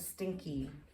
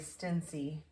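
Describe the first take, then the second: First: The middle consonant is a 'k' sound. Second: The middle consonant is an 's' sound. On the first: The speaker calls it right. "so stinky" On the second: The speaker calls it wrong. "You wouldn't say stincy"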